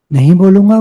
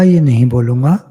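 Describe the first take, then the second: First: "नहीं बोलूँगा" louder and higher, insistent; firm refusal. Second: Said in the usual way. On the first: Retold or imitated. Preacher voicing a devotee's firm vow of silence, louder. Vows of speech restraint voiced.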